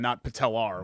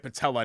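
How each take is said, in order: First: The word ends with an added R sound. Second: The word ends in a plain vowel, no R. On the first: The speaker calls it wrong. "That's the wrong pronunciation of the word" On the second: The speaker calls it right. "this is the correct way"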